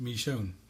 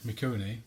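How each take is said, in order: First: The name is said as two syllables, Michonne. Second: The name is said as three syllables, Mikoni. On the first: The speaker calls it right. "is actually pronounced Michonne" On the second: The speaker calls it wrong. "for the longest time, been calling Mikoni"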